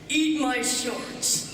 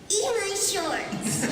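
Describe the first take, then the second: First: It sounds like a teenage boy. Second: It sounds like a very young toddler. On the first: "a fifteen-year-old Bart saying the same thing" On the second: "two-year-old Bart saying"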